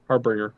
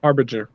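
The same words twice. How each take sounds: First: "Harbinger" said as har-BRING-er; alternative pronunciation. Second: "Harbinger" said as HAR-bi-jer; soft-g pronunciation. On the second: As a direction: say "Harbinger" with a j sound in "-ger". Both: Shown as a demonstration. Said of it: "it's one of the two".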